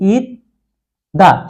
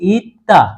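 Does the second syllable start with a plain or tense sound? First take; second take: plain; tense. First: The second syllable starts with a plain d. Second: The second syllable starts with a tense t. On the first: "উচ্চারণটা হওয়ার কথা কি?" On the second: "দা না হয়ে হবে কি?"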